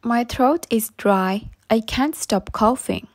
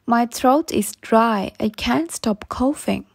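No difference in how they are said.

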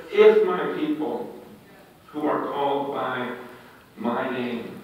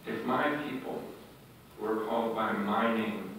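First: Said in the usual way. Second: "if my people" said softer and lower, stress on "my"; hushed, reflective reread; soft repeat. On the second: Shown as a demonstration. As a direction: quietly lean on "my people". Repeats verse softly.

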